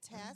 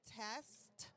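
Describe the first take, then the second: First: The final t sound is left off. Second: The final t sound is clearly pronounced.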